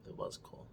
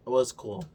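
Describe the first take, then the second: First: It was cool. whispered, voiceless. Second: Said in the usual way. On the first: Shown as a demonstration. Fading out the grudging praise, whispered. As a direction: whisper it away.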